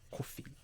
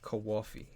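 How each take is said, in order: First: It is said with a plain, neutral accent. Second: It is said with an East Coast accent.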